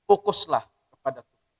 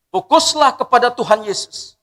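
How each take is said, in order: First: Said in the usual way. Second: "Fokuslah" lifted high and loud with a rising tune; loud preached exhortation. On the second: Shown as a demonstration. Preacher urging the congregation to focus on Jesus, loud. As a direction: proclaim it to the whole congregation. Preacher repeats key phrase.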